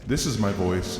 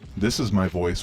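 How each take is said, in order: First: The voice has a reverb effect on it. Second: The voice has a chorus effect on it. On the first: "with reverb" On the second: "with a chorus effect"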